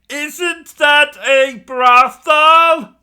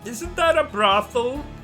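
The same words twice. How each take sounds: First: It is said louder. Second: It is said at normal volume.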